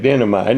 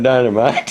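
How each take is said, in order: First: It is said with an unusual family pronunciation. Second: It is said with the ordinary standard pronunciation. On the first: This is how a relative used to say it. "It called it dynamite" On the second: This is the usual way to say it. "not dynamite"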